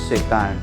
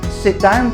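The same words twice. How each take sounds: First: The voice stays low and flat. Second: The voice starts high and lively. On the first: The listeners are not welcome. "a low inflection" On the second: The listeners are happily welcomed. "if you raise your inflection at the beginning"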